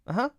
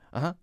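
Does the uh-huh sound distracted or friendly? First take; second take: friendly; distracted. First: It sounds warm and friendly. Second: It sounds absent-minded and distracted. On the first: Yes, gladly. "then it's a friendly yes" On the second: Yes, but I'm not really listening. "more like I'm not paying attention"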